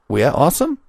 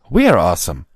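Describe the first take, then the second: First: The voice rises at the end like a question. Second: The voice falls at the end like a statement.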